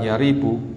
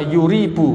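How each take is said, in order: First: The first syllable has the vowel a. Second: The first syllable has the vowel u. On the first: It is read as the simple verb form. "bi fathil ya" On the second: It is read as the causative verb form. "boleh juga menggunakan dhamma"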